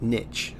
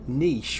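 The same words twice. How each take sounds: First: It is said the American way. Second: It is said the British way.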